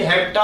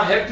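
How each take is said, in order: First: हेप्टा ending in an open "taa"; added final A. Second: Said in the usual way. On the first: Shown as a demonstration. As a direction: sound the last vowel of हेप्टा, hep-taa. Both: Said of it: "हेप्ट नहीं".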